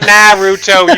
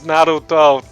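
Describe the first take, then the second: First: The R and vowels sound English. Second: The R is said the Japanese way. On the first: The speaker calls it wrong. "English nah sound" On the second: The speaker calls it right. "You have to pronounce the R with the accent"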